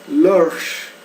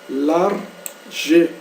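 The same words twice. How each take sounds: First: The word is said with one syllable. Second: The word is said with two syllables. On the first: The speaker calls it right. "o E não é pronunciado no inglês, então a gente lê large, large, e aí fica uma sílaba só" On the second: The speaker calls it wrong. "se nós lermos essa palavra em português, nós leríamos ela como large, né? Duas sílabas"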